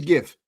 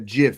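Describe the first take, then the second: First: It starts with a hard G sound. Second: It starts with a J sound, like Jif. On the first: The speaker calls it right. "It's a GIF" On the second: The speaker calls it wrong. "the people that want me to pronounce it a GIF"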